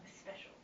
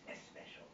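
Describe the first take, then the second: First: The word starts directly with the s sound. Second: An extra vowel sound comes before the s. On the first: The speaker calls it right. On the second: The speaker calls it wrong.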